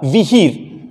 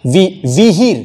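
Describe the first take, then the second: First: "विहीर" with short vi and long heer; quick vi, stretched hee in "विहीर"; correct pronunciation. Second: "विहीर" with a drawn-out long vee; mispronunciation demo. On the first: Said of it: "ऐसा pronunciation के हिसाब से ये सही है". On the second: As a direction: lengthen the first syllable of "विहीर" to vee. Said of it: "ये गलत हो गया". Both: Shown as a demonstration.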